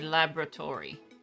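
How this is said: The word is said with an American pronunciation. "Americans say laboratory"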